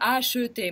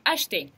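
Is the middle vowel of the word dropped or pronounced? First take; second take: pronounced; dropped. First: The middle vowel is pronounced as a full syllable. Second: The middle vowel is dropped from the word. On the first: The speaker calls it wrong. "мы не скажем «acheter»" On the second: The speaker calls it right. "мы просто скажем «acheter»"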